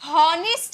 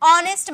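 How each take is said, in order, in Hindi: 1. यह एक सुनाई देने वाली h ध्वनि से शुरू होता है। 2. यह सीधे स्वर ध्वनि से शुरू होता है। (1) "हॉनेस्ट नहीं बोलते हैं" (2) "एच साइलेंट"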